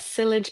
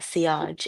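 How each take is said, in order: First: It is said with an American pronunciation. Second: It is said with a French pronunciation. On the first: "sillage is the American pronunciation" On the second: "if you want to talk with a French accent, then yeah, sillage is correct"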